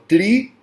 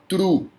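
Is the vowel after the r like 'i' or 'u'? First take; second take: i; u. First: The r is followed by an 'i' sound. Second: The r is followed by a 'u' sound. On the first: "tem gente que fala tri" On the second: "tem gente que fala tru. E é tru"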